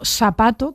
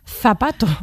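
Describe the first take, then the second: First: The first sound is a hissing s. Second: The first sound is a tongue-between-teeth th.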